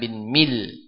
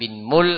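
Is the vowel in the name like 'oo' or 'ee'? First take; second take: ee; oo. First: The name is said with an ee vowel. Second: The name is said with an oo vowel. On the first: Another reading of the name. "ada yang mengatakan bin Mil" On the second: One reading of the name. "Ada yang mengatakan bin Mul"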